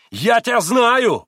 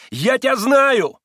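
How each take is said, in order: First: Slow, high, loud agitated cry; irritated exclamation. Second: Even higher, slow, loud stubborn cry; irritated exclamation, repeated. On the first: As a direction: shake a fist and shout it. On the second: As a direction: insist on it like a fool. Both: Acted. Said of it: "восклицал он раздражённо".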